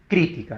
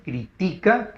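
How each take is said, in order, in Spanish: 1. El acento está en la primera sílaba. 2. El acento está en la segunda sílaba. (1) "En este caso es drújula" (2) "la sílaba tónica en la, uh, en la ti, es grave"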